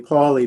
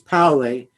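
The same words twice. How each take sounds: First: The name is said with an English pronunciation. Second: The name is said with a German pronunciation. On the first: The speaker calls it wrong. "you could say Pauli" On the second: The speaker calls it right. "the correct pronunciation is Pauli"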